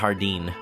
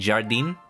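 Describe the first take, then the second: First: It starts with a Spanish-style throaty H sound. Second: It starts with a soft French-style zh sound. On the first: "I guess I'm doing the Spanish pronunciation" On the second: "How do you pronounce J A R D I N in French? Is it like"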